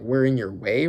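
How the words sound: It is said with a questioning, challenging tone. It challenges whether they are really in the way. The speaker calls it right.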